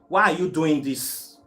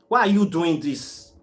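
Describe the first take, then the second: Both takes have the same delivery.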